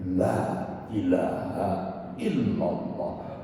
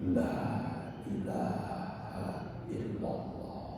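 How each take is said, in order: First: It is said in a loud, shouting voice. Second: It is said in a soft, quiet voice.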